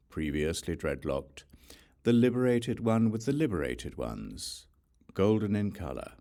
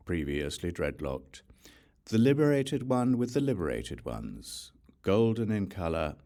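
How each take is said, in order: Both takes have the same delivery.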